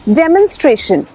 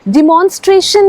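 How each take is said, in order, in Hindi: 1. पहले सिलेबल में 'eh' स्वर है। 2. पहले सिलेबल में 'ih' स्वर है। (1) "इट्स डेमोन्स्ट्रेशन" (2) "डिमॉन्स्ट्रेशन नहीं"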